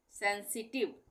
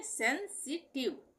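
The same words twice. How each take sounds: First: Said in the usual way. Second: Slow सेंसिटिव as sen, si, tiv; syllable by syllable. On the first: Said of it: "एक साथ जोड़कर पढ़ते हैं". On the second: Shown as a demonstration. Teacher building up the word for learners, सेंसिटिव in separate syllables. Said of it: "अलग-अलग टुकड़ों को हम एक साथ जोड़कर".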